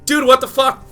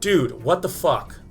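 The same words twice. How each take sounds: First: It is said in a high voice. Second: It is said in a lower voice.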